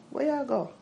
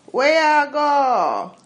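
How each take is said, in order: First: "Where I go" quick and clipped, Jamaican; don't stretch the vowels, Jamaican; undragged Jamaican. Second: High, loud, slow drawn-out patois; dragged downtown Jamaican. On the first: Other Jamaicans saying it without the drag. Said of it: "they don't drag it". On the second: Showing how downtown Kingston folk drag their patois. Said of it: "they drag it". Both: Shown as a demonstration.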